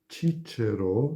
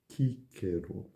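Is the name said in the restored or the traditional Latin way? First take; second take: traditional; restored. First: The name is said in traditional Latin style. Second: The name is said in restored Latin style. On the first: "seria a pronúncia tradicional" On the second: "mas sim Cícero"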